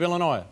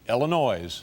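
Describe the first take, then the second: First: Illinois is said in a standard pronunciation. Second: Illinois is said in an Indiana pronunciation.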